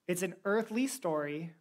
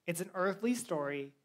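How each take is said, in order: Both takes have the same delivery.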